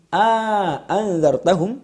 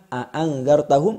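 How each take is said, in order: First: A long a vowel separates the two glottal stops. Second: The two glottal stops have no long vowel between.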